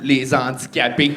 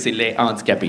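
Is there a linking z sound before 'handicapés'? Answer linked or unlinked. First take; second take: linked; unlinked. First: A z sound links 'les' to 'handicapés'. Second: No z sound links 'les' to 'handicapés'. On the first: The speaker calls it wrong. "J'ai dit les handicapés, mais je sais qu'il faut pas faire la liaison" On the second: The speaker calls it right. "Je suis désolé, c'est les handicapés"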